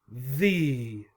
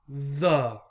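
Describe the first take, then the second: First: The word ends in an 'ee' vowel. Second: The word ends in a weak 'uh' vowel. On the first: "This symbol that looks like a small I is E" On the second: "Here's the schwa again"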